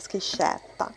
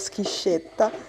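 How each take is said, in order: First: The E is pronounced open. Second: The E is pronounced closed. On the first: "con la E aperta" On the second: "però non ci riesco, dico schiscetta"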